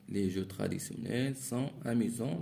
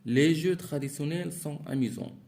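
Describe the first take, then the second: First: Said in the usual way. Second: Higher and louder, read out to the class; reading aloud. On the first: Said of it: "teacher repeats it plainly". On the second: Shown as a demonstration. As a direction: announce the example sentence clearly. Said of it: "teacher reads the exercise sentence". (lecture à voix haute, plus forte et plus aiguë)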